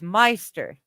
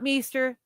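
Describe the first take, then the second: First: The first vowel sounds like 'eye'. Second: The first vowel sounds like 'ee'. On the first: The speaker calls it right. "It's a long I" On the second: The speaker calls it wrong. "I'm still pronouncing the E"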